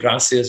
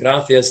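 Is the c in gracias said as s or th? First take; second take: s; th. First: The c sounds like s, Latin American style. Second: The c sounds like English th, Castilian style.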